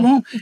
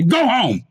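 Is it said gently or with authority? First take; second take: gently; authority. First: It is said gently, like pleading. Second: It is said firmly, with authority.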